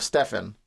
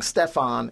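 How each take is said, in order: First: Said in the usual way. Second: "Stefan" Europeanized, steh-FAHN; Europeanized name. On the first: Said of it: "instead of Stefan". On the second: Shown as a demonstration. Writer showing how captain says his name, "Stefan" as steh-FAHN. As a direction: say "Stefan" with a long final ah, stressed. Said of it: "Europeanizes my first name".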